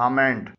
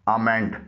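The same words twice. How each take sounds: Both takes have the same delivery.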